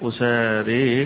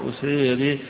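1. الألف الأخيرة فقط تُمال نحو الكسرة. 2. كلا ألفي المد تُمالان نحو الكسرة. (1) "ويقرأها البعض بالإمالة" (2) "بإمالة الألف وبإمالة الياء أو الألف في آخرها أيضا"

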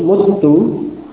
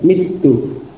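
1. Vokal pertama adalah 'u'. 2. Vokal pertama adalah 'i'. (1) "mengubah harakat fa' kalimah menjadi dhammah, ya, mutu" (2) "mengkasrah pada fa' kalimah tadi, mitu"

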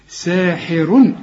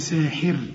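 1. تنتهي الكلمة بـ -un من غير غنة. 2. تنتهي الكلمة بـ r ساكنة وخفيفة. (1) "عند الوصل ضمتين" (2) "عند الوقف ها رقق"

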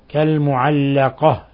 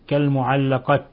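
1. تنتهي الكلمة بصوت الهاء. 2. تنتهي الكلمة بصوت التاء. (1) "نقف عليها بالهاء وليس بالتاء" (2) "لا نقول كالمعلقة"

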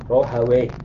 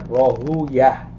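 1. Nama itu berakhir dengan bunyi 'wayh'. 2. Nama itu berakhir dengan bunyi 'yah', bukan 'wayh'. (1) "Tapi ulama lughah Rahawayh" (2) "kebanyakan para ulama hadis membacanya dengan Rahuyah. Mereka menghindari pengucapan waih"

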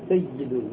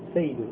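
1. صوت y مضاعف وممدود. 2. صوت y مفرد وقصير. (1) "هذا فيه تشديد" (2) "مثال كذا للتخفيف"

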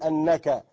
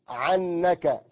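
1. تبدأ الكلمة بالهمزة. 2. تبدأ الكلمة بصوت العين الحلقي.

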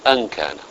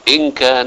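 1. تبدأ الكلمة الأولى بصوت 'a'. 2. تبدأ الكلمة الأولى بصوت 'i'. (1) "ويمكن أن نقرأها أن كان على أنها تعليلية" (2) "يمكن أن تقرأ بكسر الهمزة على أنها شرطية"

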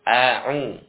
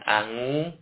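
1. Konsonan tengah itu bunyi ain tenggorokan. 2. Konsonan tengah itu bunyi ng. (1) "Bukan angu, ya. Tapi ain" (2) "Bukan angu"

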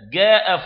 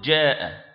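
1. تبدأ الكلمة بصوت g قاسٍ. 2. تبدأ الكلمة بصوت j شبيه بالدال. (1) "جاء هذه ليست في لغة العرب" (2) "تدخل شيئا من الدال مع الجيم فتحصل على الجيم"

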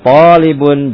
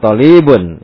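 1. Vokal setelah t dibaca panjang. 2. Vokal setelah l dibaca panjang. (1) "Jadi yang panjang itu to-nya" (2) "Lamnya jadi ditarik gitu, jadi akhirnya panjang"

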